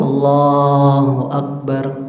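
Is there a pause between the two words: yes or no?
no. The two words run together without a pause.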